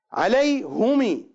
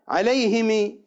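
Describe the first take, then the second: First: عليهم said slowly, ending in a y-like i; slow عليهم closing on a long i; variant reading. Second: عليهم with an i after the h, alayhimi; variant reading. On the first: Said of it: "بالياء". (عليهم بالياء ببطء) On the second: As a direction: say عليهم with i throughout. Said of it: "عليهم بالكسرة". (عليهم بالكسرة) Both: Shown as a demonstration.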